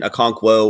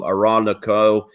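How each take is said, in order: First: The name begins with an oh-kon sound. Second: The name begins with an ah-rah sound. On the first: The speaker calls it right. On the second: The speaker calls it wrong.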